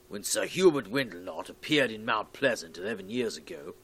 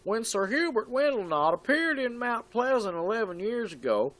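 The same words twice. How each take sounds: First: It is read in the speaker's normal voice. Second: It is read in a put-on character voice.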